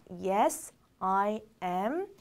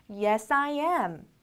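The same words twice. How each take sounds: First: Slow, separated words; word-by-word model. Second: Said in the usual way. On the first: Shown as a demonstration. Teacher modelling a short answer for learners, slowly word by word. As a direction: give each word its own beat, lower. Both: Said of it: "라고 얘기합니다".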